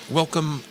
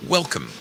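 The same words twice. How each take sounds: The two takes are said the same way.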